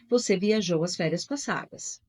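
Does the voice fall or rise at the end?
fall. The voice falls at the end like a statement. It states a fact. "Eu só mudo a entonação da frase"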